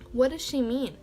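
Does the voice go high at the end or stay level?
level. The voice stays fairly level at the end.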